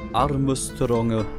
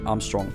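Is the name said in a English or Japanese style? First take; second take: Japanese; English. First: The name is said with Japanese-style syllables. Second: The name is said in the usual English way.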